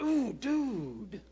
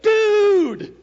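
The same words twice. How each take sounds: First: Drawn-out wince of sympathy on "Ooh, dude"; sympathetic wince. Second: High, loud delighted shout of greeting; excited dude. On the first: Shown as a demonstration. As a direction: wince for a buddy who fell on his face. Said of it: "he face plants". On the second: Retold or imitated. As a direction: greet an old friend with a burst of joy. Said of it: "that dude means I'm excited".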